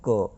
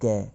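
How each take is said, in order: First: The consonant is followed by a short 'a' vowel. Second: The consonant is followed by an 'ai' vowel. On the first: The speaker calls it right. "ये होता है क" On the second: The speaker calls it wrong. "कै नहीं होता ये"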